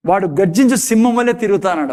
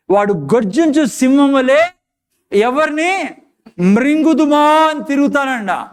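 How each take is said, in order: First: Said in the usual way. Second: Dramatic scripture reading. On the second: Acted. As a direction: declaim the roaring lion verse. Verse read with dramatic emphasis.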